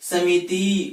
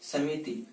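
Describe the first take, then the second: First: The final vowel is drawn out long. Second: The final vowel is kept short. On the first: The speaker calls it wrong. "व्यवहार में हम इनका उच्चारण अशुद्ध करते" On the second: The speaker calls it right. "जबकि शुद्ध वाचन इनका ये है"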